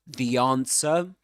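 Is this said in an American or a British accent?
British. It is said in a British accent. "Let's go now to the U K"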